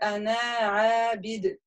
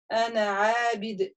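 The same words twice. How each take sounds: First: The final vowel of the first word is long. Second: The final vowel of the first word is short. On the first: The speaker calls it wrong. "То есть я не читаю «ана абид»" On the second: The speaker calls it right. "Если мы продолжаем, получается у нас «ана абид»"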